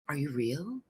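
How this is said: Said in a hushed, awed tone. It is disbelief at seeing someone. "what someone would say if they were looking at a spirit"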